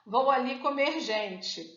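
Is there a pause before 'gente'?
no. It is said without a pause before gente.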